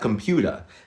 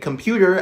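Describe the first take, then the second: First: The final R sound is dropped. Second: The final R sound is pronounced.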